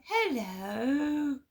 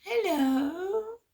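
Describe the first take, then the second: First: Mum's overly sweet hello, pitched up. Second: Higher, sing-song mock-sweet hello. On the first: Retold or imitated. Imitating mum answering the phone all sweet. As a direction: imitate mum's sugary greeting. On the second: Imitating mum answering the phone, sugary and much higher. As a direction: coo it like a falsely nice mum. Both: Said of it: "like, all nice".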